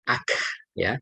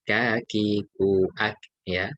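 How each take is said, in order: First: The k ends with a strong, long puff of breath. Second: The k ends with a short, light puff of breath. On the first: The speaker calls it wrong. "tidak eh, sampai apa namanya" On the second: The speaker calls it right. "nggak terlalu berlebihan tapi biasa saja"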